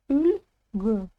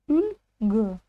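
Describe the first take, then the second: No difference in how they are said.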